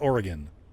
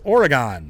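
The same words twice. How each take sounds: First: The last syllable is reduced, like 'gun'. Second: The last syllable is said like 'gone'. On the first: The speaker calls it wrong. "They just say it wrong" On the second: The speaker calls it right. "G O N. Gone"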